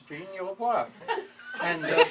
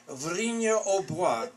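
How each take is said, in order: First: "Vrigne-au-Bois" said quickly, pitched up, laughing; "Vrigne-au-Bois" as a laughing, exasperated retort. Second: "Vrigne-au-Bois" said slowly in French, nasal "Vrigne" and "Bois" as "bwa"; "Vrigne-au-Bois", a slow, careful French pronunciation; French place name. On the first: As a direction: insist "Vrigne-au-Bois" is the name, half laughing. Insisting the place name to lieutenant. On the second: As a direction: spell out "Vrigne-au-Bois" syllable by syllable, the way the Frenchman did. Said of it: "he says". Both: Retold or imitated.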